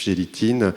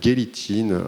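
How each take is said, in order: First: The name is pronounced with French sounds. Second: The name is pronounced with German sounds. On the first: "moi je le, le prononce à la française" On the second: "on dit peut-être Gélitin en, en allemand"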